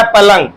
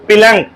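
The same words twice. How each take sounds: First: पलंग with a short a in the first syllable; correct पलंग. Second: पिलंग with a short i in the first syllable; the common slip पिलंग, first vowel turned to i; mispronounced पलंग. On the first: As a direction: say पलंग, opening on "pa", not "pi". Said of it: "but होता है पलंग". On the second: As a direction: say पिलंग, opening on "pi" instead of "pa". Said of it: "कुछ लोग बोलते हैं पिलंग". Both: Shown as a demonstration.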